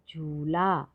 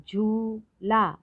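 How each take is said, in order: First: Said in the usual way. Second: झूला split as high long झू, then ला; syllable by syllable. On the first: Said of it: "तो शब्द पढ़ते हैं". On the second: Shown as a demonstration. Teacher showing long ऊ in झूला, syllable by syllable. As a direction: hold झू, separate ला in झूला. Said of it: "थोड़ा अधिक समय लगता है".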